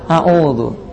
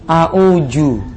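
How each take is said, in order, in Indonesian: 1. Konsonan tengahnya terdengar seperti 'dz'. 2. Konsonan tengahnya terdengar seperti 'j'. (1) "tapi apa? A'udzu" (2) "Salah. Bukan a'uju"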